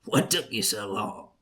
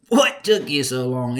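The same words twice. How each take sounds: First: Said in the usual way. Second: Louder uncle teasing; louder repeat. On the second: Retold or imitated. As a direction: ask it again, pushing harder. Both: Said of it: "He said".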